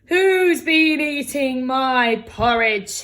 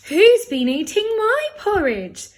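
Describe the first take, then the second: First: The voice is deep and gruff. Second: The voice is medium-pitched. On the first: A large, gruff character is speaking. "he said in his great gruff voice" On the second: A middle-sized character is speaking. "said Mother Bear in her middle-sized voice"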